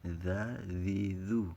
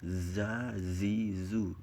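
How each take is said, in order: First: "Za, zi, zu" with the tongue tip out between the teeth. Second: "Za, zi, zu" buzzed through closed teeth, tongue held behind them; zay with teeth shut. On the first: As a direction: say "Za" like English th in "this". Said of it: "ujung lidahnya keluar, keluar lewat gigi sedikit". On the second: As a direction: say "Za" as a plain z buzz. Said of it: "Giginya tertutup. Lidahnya tertahan sama gigi". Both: Shown as a demonstration.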